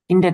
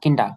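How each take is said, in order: First: The word ends with an 'er' sound. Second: The word ends with an 'ah' sound. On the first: The speaker calls it wrong. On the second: The speaker calls it right.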